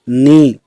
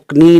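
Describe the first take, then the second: First: The word starts with an n sound. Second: The word starts with a k sound. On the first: The speaker calls it right. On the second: The speaker calls it wrong.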